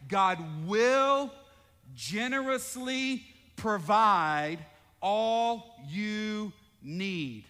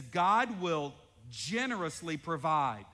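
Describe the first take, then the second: First: Louder, slow, every word leaned on; emphatic slow reading. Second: Said in the usual way. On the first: Shown as a demonstration. Pastor re-reading the promise, louder and drawn out. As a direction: read it out big and slow. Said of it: "Underline that word will". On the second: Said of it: "It says".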